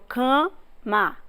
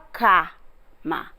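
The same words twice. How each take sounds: First: The first vowel is nasalized before the m. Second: The first vowel is oral, not nasalized. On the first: The speaker calls it right. "Ela já nasaliza a anterior" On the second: The speaker calls it wrong. "Você não fala cama"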